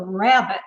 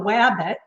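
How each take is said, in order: First: The word begins with an R sound. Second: The word begins with a W sound. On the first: An adult's standard pronunciation. The speaker calls it right. "it's a rabbit" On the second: A young child's immature pronunciation. The speaker calls it wrong. "the child says wabbit"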